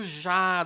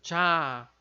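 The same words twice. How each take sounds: First: It begins with a soft 'zh' sound. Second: It begins with a 'dj' sound. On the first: The speaker calls it wrong. "também não é esse som do já, do jacaré" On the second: The speaker calls it right. "esse som do J que a gente colocou um D antes"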